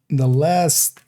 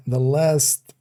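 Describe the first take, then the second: No difference in how they are said.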